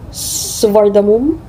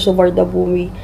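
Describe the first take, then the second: First: The name ends with a 'mum' sound. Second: The name ends with a 'bumi' sound. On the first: The speaker calls it right. "Suvardamum nakalagay dun sa TikTok" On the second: The speaker calls it wrong. "Hindi daw Suvardabumi"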